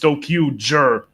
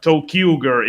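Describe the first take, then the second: First: The ending uses a soft j sound. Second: The ending uses a hard g sound. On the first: The speaker calls it right. "it's jer because ranger" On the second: The speaker calls it wrong. "it's not ger"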